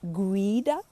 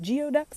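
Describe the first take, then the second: First: It is said differently from its spelling. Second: It is said just as it is spelled. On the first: This is how local people say it. The speaker calls it right. "the native pronunciation of it is like geoduck" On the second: The speaker is not from the area. The speaker calls it wrong. "I can always tell when somebody's not from around here when they say"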